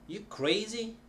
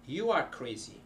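First: CRAZY rising high; question by intonation. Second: "crazy" falling at the end; statement intonation. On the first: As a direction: ask it only with the lift on "crazy". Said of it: "When you don't show the sen". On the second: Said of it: "a way of showing that it's a sentence". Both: Shown as a demonstration.

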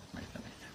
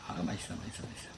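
First: Breathy whispered yum; hushed, much softer murmur. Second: Said in the usual way. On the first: Real, not acted. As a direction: whisper it softly to the dog. Cooing to the dogs.

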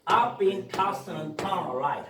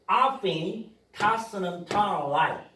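First: I've been tossed and turned right로 뭉개 아주 느리게; 줄인 형태를 아주 천천히; heavily reduced demo. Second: I've been tossing and turning a light를 천천히; 느리게 덜 줄인 형태로; full form demo. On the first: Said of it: "발음 날 수 있습니다". (강한 축약 발음) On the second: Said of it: "tossed and turned right까지". (덜 줄인 발음 시범) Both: Shown as a demonstration.

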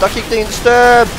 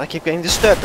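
First: Higher-pitched complaint, rising on DISTURBED; exasperated raised voice; escalating annoyance. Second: Said in the usual way. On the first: Real, not acted.

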